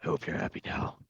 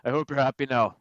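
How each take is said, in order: First: Gruff, voiceless rasp; low-energy gruff whisper; gruffy voice. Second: Louder, higher gruff Irish voice; pointed, gruff Irish delivery; gruff Irish accent. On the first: Shown as a demonstration. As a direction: rasp it out like a brooding vigilante. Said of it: "I'm gonna do the gruffy voice". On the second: Acted. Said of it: "a more gruff Irish accent".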